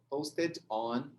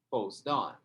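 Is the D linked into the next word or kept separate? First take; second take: separate; linked. First: Both words are said fully and separately. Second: The D joins directly onto the next word. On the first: The speaker calls it wrong. "o brasileiro vai falar posted. Posted on e não vai dar certo" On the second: The speaker calls it right. "o E desaparece. Sobrou só o D. Ele grudou no O"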